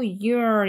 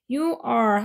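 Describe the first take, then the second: First: It is said as one contracted syllable. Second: It is said as two full separate words.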